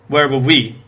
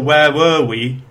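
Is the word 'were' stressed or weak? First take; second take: weak; stressed. First: The word 'were' is weak and unstressed. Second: The word 'were' is stressed and strong. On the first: The speaker calls it wrong. "So I stressed the wrong word. I thought were was supposed to be weak there" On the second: The speaker calls it right. "That's because were is the main verb in that sentence"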